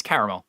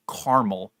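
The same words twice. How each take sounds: First: "caramel" with three syllables, CARE-uh-mul; low "caramel", middle A kept; insisted pronunciation. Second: "caramel" as CAR-mul; rejected pronunciation. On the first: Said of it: "there's an A in there". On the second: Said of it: "It's not caramel". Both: Shown as a demonstration.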